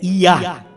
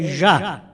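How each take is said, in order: First: The name begins with a Y sound. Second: The name begins with a J sound. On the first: This is the original form of the name. The speaker calls it right. "mas o certo é Iá" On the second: This is the form written in the translated Bible. The speaker calls it wrong. "a tradução da nossa Bíblia já diz"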